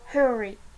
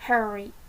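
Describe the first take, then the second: First: It is said with a British accent. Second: It is said with an American accent.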